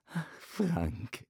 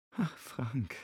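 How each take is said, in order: First: Spottend nagedaan. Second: Medelijdend. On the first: Retold or imitated. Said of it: "äffte er sie nach". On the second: Acted. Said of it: "als ob sie Mitleid mit ihm hätte".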